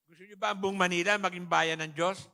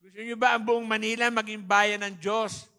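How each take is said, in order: First: Louder call to the crowd; rallying question to the hall; rousing question. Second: Much louder, pushing for a bigger answer; louder repeat. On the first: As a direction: ask the congregation to answer. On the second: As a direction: demand a stronger response. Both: Real, not acted. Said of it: "Ang hina ng sagot".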